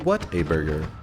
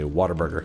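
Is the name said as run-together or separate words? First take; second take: separate; run-together. First: The three words are said separately and carefully. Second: The words run together as one quick word. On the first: The speaker is not a real Texan. The speaker calls it wrong. "If you're a real Texan, you don't say" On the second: The speaker is a real Texan. The speaker calls it right. "you say Whataburger"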